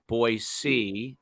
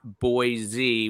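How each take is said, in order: First: The middle consonant is a hissing s sound. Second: The middle consonant is a buzzing z sound. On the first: The speaker calls it right. "but Boise" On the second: The speaker calls it wrong. "it's not Boise with a Z"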